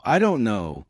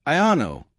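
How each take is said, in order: First: Measured, separate words; careful "don't know", unblended; a touch deliberate; slow learner version. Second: "I know" slurred as "I-unno", pitched higher; "I know" as one smooth sound, consonants dropped; fluent reduced version. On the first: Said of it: "or slow". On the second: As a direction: blend "I don't know" into "I know" as "I'unno". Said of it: "fluent speakers say it like". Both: Shown as a demonstration.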